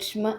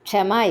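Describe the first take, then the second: First: The 'ksh' runs straight into 'm' with no vowel. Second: A full vowel sits between 'ksh' and 'm'. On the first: The speaker calls it right. "പകുതിയേ ഉള്ളൂ. ക്ഷായുടെ പകുതിയെ ഉച്ചരിച്ചാൽ മതി" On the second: The speaker calls it wrong. "ക്ഷമ ഇല്ല കേട്ടോ"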